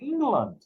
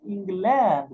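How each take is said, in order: First: The last vowel is reduced. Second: The last vowel is said fully. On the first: The speaker calls it right. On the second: The speaker calls it wrong.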